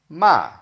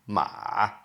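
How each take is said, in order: First: The pitch falls sharply from high. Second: The pitch dips down, then rises. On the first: It means to scold somebody. "like a falling tone" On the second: It means horse. "down and up the third tone"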